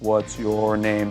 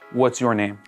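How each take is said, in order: First: It is said in an exaggerated, overly slow way. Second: It is said at a moderate, natural pace.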